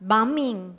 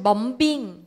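First: The middle B is silent. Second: The middle B is pronounced. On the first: The speaker calls it right. "ออกเสียงว่าบอมแล้วก็บัมมิง" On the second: The speaker calls it wrong. "ไม่ใช่"

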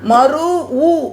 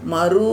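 First: The final vowel is broken into a separate syllable. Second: The final vowel is held as one long sound. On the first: The speaker calls it wrong. "மறு ஊ அப்படின்னு படிக்கக்கூடாது" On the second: The speaker calls it right. "மறு அப்படின்னு படிக்கணும். ... நீண்டு தான் ஒலிக்க வேண்டும்"

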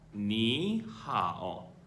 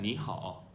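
First: It is said slowly with clear tones. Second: It is said quickly and run together. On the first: "다시 한번 해보겠습니다" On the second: "물론 빨리 발음하면"

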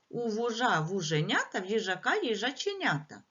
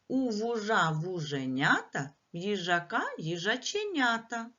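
First: It is said at the fastest pace. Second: It is said at a faster pace. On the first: "А тепер ще швидше" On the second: "Давайте швидше"

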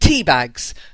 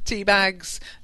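First: The words are said in a cursing tone. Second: The words are said in a plain tone. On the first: It works as a swear word. "Definitely a swear word, but not rude" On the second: It simply names the tea bags. "not a swear word"

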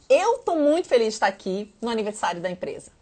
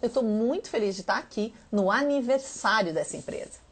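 First: The emphasis falls on 'muito feliz'. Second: The emphasis falls on 'aniversário'. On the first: "Eu tô muito feliz. Foi um pouco mais enfatizado" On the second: "Agora é o aniversário que foi enfatizado"

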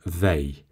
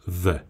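First: The pronoun is said in full with a long vowel. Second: The pronoun is said reduced with a weak vowel. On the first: The speaker is emphasizing who does it. "если мы хотим сделать акцент на том, что вот мы понимаем тебя очень хорошо" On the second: It is a plain neutral statement. "Если просто в более повествовательной форме"

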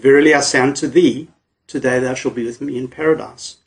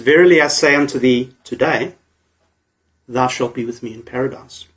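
First: The pause comes before the word today. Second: The pause comes after the word today.

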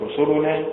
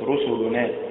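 First: The stress is on the second syllable. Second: The stress is on the third syllable. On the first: "وليست" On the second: "وليست"

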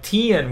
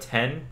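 First: The vowel is raised, so it sounds like 'tin'. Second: The vowel is open, so it sounds like 'ten'. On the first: This is how the local southern kids said it. "people didn't pronounce E's" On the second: This is how the speaker said it at home. "Instead of 10"

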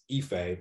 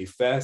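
First: The name is said without Yoruba tones. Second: The name carries Yoruba tones. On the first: This is how people outside the language say the name. "so it was Ife" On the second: This is the name as it is said in its own language. "people couldn't say Ife"

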